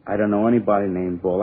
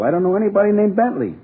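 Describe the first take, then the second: First: Said in the usual way. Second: Insist, pitch leaping up in protest; exasperated denial. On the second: Acted. Suspect repeats his denial to police, exasperated. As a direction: voice soaring high on the name. Denial escalates under questioning.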